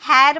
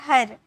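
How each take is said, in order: First: The vowel is an open 'air' sound. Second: The vowel is a central 'er' sound. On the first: The speaker calls it wrong. "हैर मत बोलना" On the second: The speaker calls it right. "इसे क्या बोला जाता है? हर"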